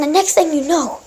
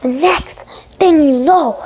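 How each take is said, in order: First: Said in the usual way. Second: "the next thing you know" stretched out slowly; slow, drawn-out repeat. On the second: Real, not acted. Gamer retelling his sudden death, slow and drawn-out.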